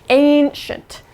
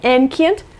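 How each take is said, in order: First: It is said unlike its spelling suggests. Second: It is said the way its spelling suggests. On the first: The speaker calls it right. "It's ancient" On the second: The speaker calls it wrong. "it kind of looks like it would be ancient. That's not right"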